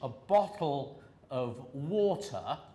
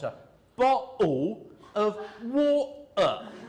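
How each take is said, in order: First: The t sounds are pronounced as clear t's. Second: The t sounds are replaced by glottal stops. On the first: "in the Queen's English, or, or posh English" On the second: "they're making glottal stops"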